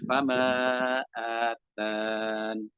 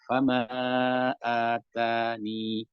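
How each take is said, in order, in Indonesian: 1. Kata ini berakhir tanpa bunyi 'i'. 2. Kata ini berakhir dengan bunyi 'i'. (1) "ketika dibuang" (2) "jika masih ada ya-nya"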